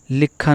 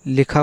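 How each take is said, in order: First: लिखा with a held, doubled kh; लिखा as लिक्खा; wrong pronunciation. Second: लिखा with a short single kh; लिखा without doubling the kh; correct pronunciation. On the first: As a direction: say लिखा as "likkha". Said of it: "लिखा नहीं". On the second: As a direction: say लिखा as "li-kha". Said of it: "लिखा होता है". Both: Shown as a demonstration.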